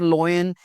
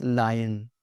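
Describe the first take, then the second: First: Lion said as "loy-en"; mispronunciation. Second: Lion said as "lie-en"; correct pronunciation. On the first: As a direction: put an "oy" in lion. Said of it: "it's not lion". (lion को "लॉयन" बोलें) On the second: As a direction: put an "eye" sound in lion. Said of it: "it's lion". (lion को "लायन" बोलें) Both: Shown as a demonstration.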